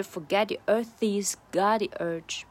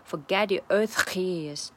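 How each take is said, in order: First: "earth" linked straight into "he's" with the H almost gone; "earth he's" run together as "earth-ees"; near-silent H. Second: "he's" with a strong, rasped H after "earth"; wrong take, "he's" split from "earth" by a heavy breathy H; over-heavy H. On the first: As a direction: swallow the H of "he's" after "earth". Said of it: "几乎就没有了". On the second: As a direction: overdo the H at the start of "he's". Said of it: "不会这样". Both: Shown as a demonstration.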